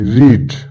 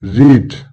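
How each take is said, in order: The two takes are said the same way.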